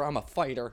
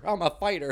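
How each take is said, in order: First: Said in the usual way. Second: Louder, higher self-hype; mock pep talk. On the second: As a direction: pump yourself up, half-joking.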